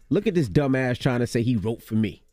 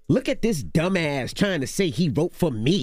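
First: It is read plainly, without attitude. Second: It is read with sass and attitude.

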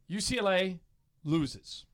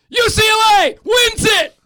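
First: It is said in a disappointed tone. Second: It is said in an excited tone.

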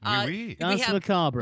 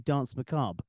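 First: The final R sound is pronounced. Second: The final R sound is dropped.

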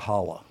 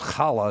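First: The first sound is a plain, soft sound. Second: The first sound is a raspy throat sound. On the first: The speaker calls it wrong. "not challah" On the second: The speaker calls it right. "The bread is challah"

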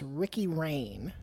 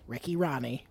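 First: The surname's vowel sounds like 'rain'. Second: The surname's vowel sounds like 'ron'. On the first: The speaker calls it wrong. "we collectively said that the name of the head coach at Old Dominion was Ricky Raine" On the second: The speaker calls it right. "This man's name is actually Ricky Rahne"

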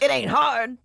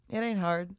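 First: It is said in a put-on old man's voice. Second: It is said in a sad, downcast tone. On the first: The speaker calls it right. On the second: The speaker calls it wrong. "you said it like a sad"

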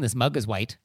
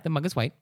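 First: It sounds condescending and judgmental. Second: It sounds plain and neutral. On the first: The listener is foolish for not knowing. The speaker calls it wrong. "I'm not like, oh, you're an idiot for not knowing" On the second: It is simply information. The speaker calls it right. "that's not the tone. We want to take that flavor out. It's just, yeah"

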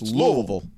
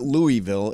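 First: The city name is pronounced the local way. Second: The city name is pronounced the outsider way. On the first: The speaker calls it right. "you're saying it right" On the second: The speaker calls it wrong. "It's not Louisville"

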